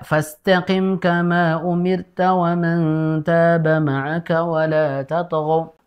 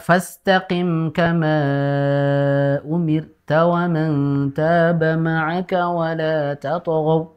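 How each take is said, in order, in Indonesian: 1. Vokal akhir kama dibaca pendek. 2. Vokal akhir kama dibaca panjang. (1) "sedikit kurang panjang ya ... Tidak" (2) "panjangkan batatil lima harokat. ... Jadi harusnya dibaca"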